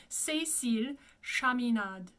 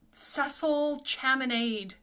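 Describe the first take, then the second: First: French Cécile Chaminade, even syllables; French pronunciation. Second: Cecil Chaminade read as English; anglicized Cecil Chaminade; mispronunciation. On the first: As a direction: say Chaminade as "sha-mee-NAHD". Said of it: "but it's not. It's". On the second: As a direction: say Chaminade with "ch" and "-ade" as in lemonade. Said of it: "or something bizarre like that, but it's not". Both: Shown as a demonstration.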